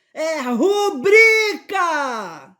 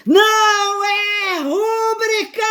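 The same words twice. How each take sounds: First: "rubrica" stressed on BRI, shouted high and loud, very slow; correct stress rubrica. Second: "rúbrica" stressed on RÚ, sung out high, loud and slow; wrong stress rúbrica. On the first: Correcting viewers with a shout, "rubrica" stressed on BRI. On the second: Mocking the common mistake to viewers, "rúbrica" stressed on RÚ. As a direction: belt "rúbrica" with the stress on the first syllable. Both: Retold or imitated. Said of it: "eu vou dar uma de Marcela Tavares".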